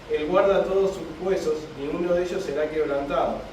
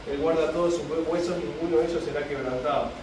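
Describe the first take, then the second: The two takes are said the same way.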